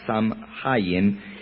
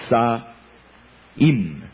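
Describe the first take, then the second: First: The name is said with an m sound. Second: The name is said without an m sound. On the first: The speaker calls it wrong. "no se pronuncia Samhain" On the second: The speaker calls it right. "sino que se pronuncia Sahim"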